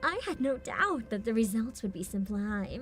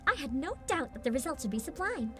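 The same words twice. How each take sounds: First: It is said in a deliberately evil, villainous tone. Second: It is said in a sincere, genuinely believing tone. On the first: The speaker knows she is doing wrong. "she could be doing an evil voice right now ... just like making it evil on purpose" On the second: The speaker believes she is doing right. "she genuinely sounds like she thought she's doing the right thing"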